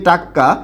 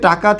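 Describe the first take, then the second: First: The middle consonant is doubled and held. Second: The middle consonant is short.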